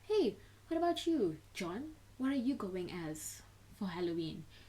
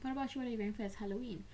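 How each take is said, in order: First: It sounds pointed, singling the person out. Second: It sounds relaxed and natural, like casual chat.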